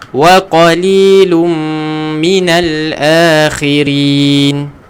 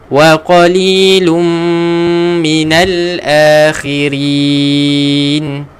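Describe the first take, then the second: First: The final long vowel is held for two beats. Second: The final long vowel is held for four beats. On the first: "contoh saya baca dua harakat" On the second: "Kalau empat harakat"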